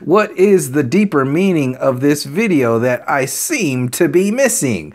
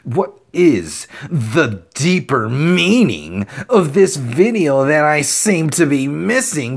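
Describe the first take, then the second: First: The question is read in a plain, neutral tone. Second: The question is read in a mocking, arrogant tone.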